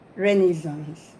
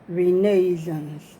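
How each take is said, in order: First: It is pronounced with an American accent. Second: It is pronounced with a British accent. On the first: "If you want to pronounce it the American way" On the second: "if you want to pronounce it the British way"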